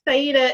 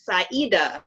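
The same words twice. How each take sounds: First: The name is said with lighter, even emphasis. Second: The name is said with stronger emphasis. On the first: "it's not Saida" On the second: "they put a little bit more emphasis on it"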